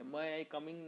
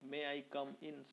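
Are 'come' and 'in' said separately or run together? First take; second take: run together; separate. First: Come and in merge into 'coming'. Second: Come and in are two separate words. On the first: The speaker calls it wrong. "कमिंग नहीं" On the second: The speaker calls it right. "कम इन अलग-अलग word है"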